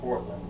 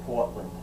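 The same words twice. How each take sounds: First: It is said in a general American accent. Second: It is said in a local Maine accent. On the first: This is how people outside Maine say it. "we don't say Portland" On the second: This is how people in Maine say it. "we say Portland. That's the part of the accent up there"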